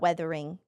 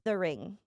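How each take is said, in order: First: The first vowel is an 'eh' sound. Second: The first vowel is a harsh 'uh' sound. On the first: The speaker calls it wrong. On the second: The speaker calls it right. "I've been trying to pronounce the U more harshly"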